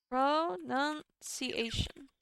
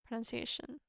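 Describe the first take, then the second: First: "Pronunciation" very slowly, syllable by syllable; drawn-out syllables. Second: Said in the usual way. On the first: Shown as a demonstration. Looking up how to say it, "Pronunciation" drawn out slowly. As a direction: stretch out each syllable of "Pronunciation".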